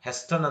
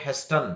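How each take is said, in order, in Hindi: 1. 't' की ध्वनि उच्चारित होती है। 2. 't' की ध्वनि उच्चारित होती है।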